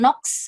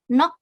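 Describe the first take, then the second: First: The word ends with a KS sound. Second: The word ends with a plain K sound. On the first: The speaker calls it wrong. "Jadi bukan nox gitu ya" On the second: The speaker calls it right. "tapi langsung gioknya saja yang dibaca nok"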